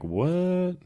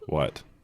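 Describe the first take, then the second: First: It is said in an excited way. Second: It is said in a flat, boring way.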